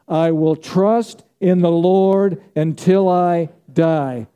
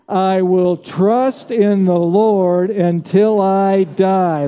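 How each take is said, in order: First: It is said in a plain, calm way. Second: It is said with strong fervor and energy.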